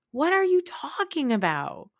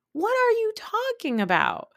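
First: High-pitched, baffled challenge; incredulous. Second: Very high squeal of disbelief; utterly incredulous. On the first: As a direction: question it in disbelief, pitch raised. Incredulous reply to Meredith's claim. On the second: Repeats incredulous question, escalating. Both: Acted.

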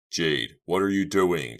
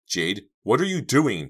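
First: Slow, loud, only slightly raised; alarmed cry. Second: High, loud, startled question; cried out. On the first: Boy seeing friend crawl toward candle, alarmed. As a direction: call out in alarm, drawing it out. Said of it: "Chuck cried in alarm". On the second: Girl shocked by friend's move, crying out. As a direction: call out with raised pitch. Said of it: "Dina cried". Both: A narrator's reading.

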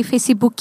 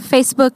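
First: Facebook said the Brazilian way, as "feisibuki"; Portuguese pronunciation. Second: Said in the usual way. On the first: Shown as a demonstration. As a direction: add vowels to Facebook, "fei-si-bu-ki". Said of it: "the words from English with a Portuguese accent". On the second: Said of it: "Instead of Facebook".

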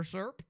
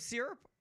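First: "syrup" with an "ur" sound, like "slurp" without the L; SURP pronunciation. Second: "syrup" with a clear "ee" sound; SEER-up pronunciation. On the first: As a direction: say "syrup" as SURP, squeezed into one syllable. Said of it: "I say syrup". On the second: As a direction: say "syrup" as SEER-up, two syllables. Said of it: "or syrup?". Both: Shown as a demonstration.

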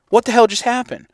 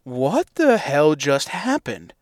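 First: Higher, sharper second asking; exasperated repeat. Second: Stunned disbelief. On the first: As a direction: throw up your hands and ask again. Repeating the same disbelief. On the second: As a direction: let it sink in slowly. Stunned after the shot. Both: Retold or imitated.

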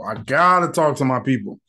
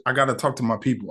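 First: Insist, stretching out "gotta"; stress on GOTTA. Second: Said in the usual way. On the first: Retold or imitated. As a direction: lean hard on the word "gotta". Repeats own words for emphasis.

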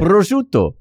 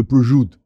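First: "Prosciutto" with every vowel, ending in a clear o; higher-pitched "Prosciutto", pro-SHOO-toh; full Italian pronunciation. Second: "Prosciutto" as bruh-ZHOOT, final vowel dropped; Sopranos pronunciation. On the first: Shown as a demonstration. International man shows how, "Prosciutto" as pro-SHOO-toh. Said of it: "You're an international man". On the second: Retold or imitated. Quoting the Sopranos, "Prosciutto" said as bruh-ZHOOT. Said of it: "in the Sopranos, they go".

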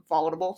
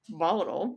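First: "Volatile" said as "volable"; "Volatile" slurred into "volable"; mispronounced word. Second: "volatile" said as "vol-a-tul"; "volatile" with a clear t; corrected word. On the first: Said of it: "Not really sure what I was trying to say". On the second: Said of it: "but I was saying". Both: Shown as a demonstration.

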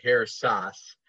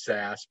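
First: "Sass" with an open ah, like "sahss"; German pronunciation. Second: "Sass" with the short a of "cat"; American pronunciation. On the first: Guest correcting the host on his surname, German "Sass" with a long ah. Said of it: "if you're from Germany". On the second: Guest explaining his surname to the host, American "Sass" with a flat-cat vowel. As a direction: say "Sass" the Midwestern way, rhyming with "mass". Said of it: "if you're from, uh, Chicago or Kansas". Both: Shown as a demonstration.

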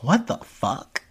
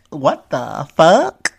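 First: Stunned disbelief. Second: Drawn-out incredulous question rising on FUCK. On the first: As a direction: stretch it out slowly in disbelief. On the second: Repeating the reaction to the clip, louder rising disbelief. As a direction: stretch it slowly, swing up at the end. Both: Retold or imitated. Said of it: "And I'm like".

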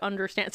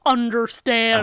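First: Said in the usual way. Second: UNDERSTAND loud and drawn out; quoting in a silly way. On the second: Retold or imitated. Host parroting a show's catchphrase, mock-dramatic UNDERSTAND. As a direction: stretch UNDERSTAND slowly in a put-on voice. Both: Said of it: "So I always go".

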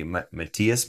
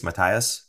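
First: "Matthias" pronounced ma-TEE-us, tentatively. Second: "Matthias" pronounced with TIE in the middle; Matthias as muh-THY-us. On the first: Host names a viewer from Sweden, "Matthias" said ma-TEE-us. Tries two pronunciations of a name. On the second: Host retries a viewer's name, "Matthias" said muh-TIE-us. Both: Real, not acted.

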